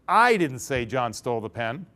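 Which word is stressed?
I. The stress is on I.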